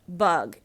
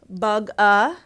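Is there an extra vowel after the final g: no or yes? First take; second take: no; yes. First: The word ends cleanly on the g sound. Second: An extra vowel sound follows the final g. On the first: The speaker calls it right. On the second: The speaker calls it wrong.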